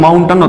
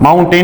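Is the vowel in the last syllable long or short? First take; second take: short; long. First: The last syllable has a short reduced vowel. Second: The last syllable has a long 'ay' vowel. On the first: The speaker calls it right. "माउंटन होता है" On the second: The speaker calls it wrong. "माउंटेन नहीं होता"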